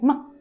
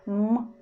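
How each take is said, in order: First: The m is short and released quickly. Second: The m is held for a moment. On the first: The speaker calls it wrong. "We don't say m. Not like this" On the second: The speaker calls it right. "we have some seconds to pronounce sound"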